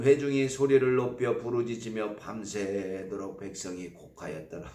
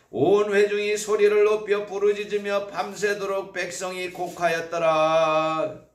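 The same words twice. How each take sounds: First: Said in the usual way. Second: Read aloud together. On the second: Shown as a demonstration. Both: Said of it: "같이 읽어볼까요".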